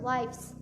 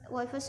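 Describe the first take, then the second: First: The word is said as one syllable. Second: The final e is sounded as an extra syllable. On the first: The speaker calls it right. "tapi langsung wives" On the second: The speaker calls it wrong. "e-nya ini gak usah ditambah, gak usah dibaca jadi wives, wives no"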